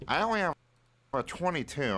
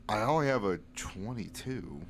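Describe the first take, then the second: First: It is said in a put-on voice for Fitch. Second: It is said in the speaker's natural voice.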